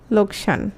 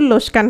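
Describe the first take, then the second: First: The k sound comes before the s sound. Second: The s sound comes before the k sound. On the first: "লোকসান কি হবে বলো তো বিপর্যয় ঘটলে" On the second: "গ্রামে কিন্তু বলে"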